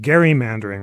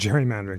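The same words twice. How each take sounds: First: The word begins with a hard g sound. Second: The word begins with a j sound. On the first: It follows the namesake's own surname. "you can pedantically pronounce it" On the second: It is the usual everyday pronunciation. "rather than"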